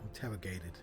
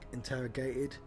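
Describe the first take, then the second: First: The T in the middle becomes a D. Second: The T in the middle is dropped. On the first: "It doesn't turn into a D, inter interrogated, like that, which is what he did" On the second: "when British people don't pronounce the T, it's like interrogated"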